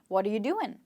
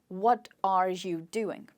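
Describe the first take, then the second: First: The words run together with reduced vowels. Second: Each word is said separately and in full. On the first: The speaker calls it right. "the question which is spoken sounds like" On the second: The speaker calls it wrong. "if you think R should be pronounced as R and you should be pronounced as you"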